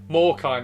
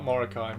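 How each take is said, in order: First: The name is said with two syllables. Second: The name is said with three syllables. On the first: The speaker calls it right. "Morkai, not Morokai" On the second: The speaker calls it wrong. "not Morokai"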